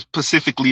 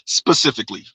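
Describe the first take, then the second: First: The word begins with a p sound. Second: The word begins with an s sound. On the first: The speaker calls it wrong. "I've definitely heard people say" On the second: The speaker calls it right. "instead of"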